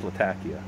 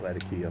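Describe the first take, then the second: First: "Latakia" said luh-TAK-ee-uh, stress on the second syllable; careful "Latakia" with the TAK stressed and the first vowel weak; correct pronunciation. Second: "Latakia" said LAT-uh-kee-uh, stress on the first syllable; "Latakia" with a stressed LAT and a weak TA; wrong pronunciation. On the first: Smoker corrects his own pronunciation, stressing "Latakia" on TAK. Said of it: "It is pronounced". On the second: Smoker shows the common mistake, saying "Latakia" as LAT-uh-kee-uh. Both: Shown as a demonstration.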